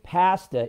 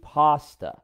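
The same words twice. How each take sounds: First: "pasta" with short a as in cat; Canadian pronunciation. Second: "pasta" with ah, as PAH-stuh; American pronunciation. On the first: Teasing Canadians about food words, "pasta" as PASS-ta. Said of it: "you guys say differently in Canada". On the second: Showing Canadians the US way, "pasta" as PAH-stuh. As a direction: say "pasta" the US way, with a broad ah. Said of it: "in the U S". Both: Shown as a demonstration.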